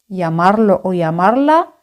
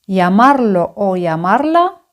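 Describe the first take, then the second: Both takes have the same delivery.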